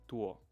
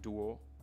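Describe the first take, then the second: First: It starts with an unaspirated T-like sound. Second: It starts with an English-style D sound. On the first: The speaker calls it right. "It's actually like a T, but um, unaspirated" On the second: The speaker calls it wrong. "not pronounced like a D in English"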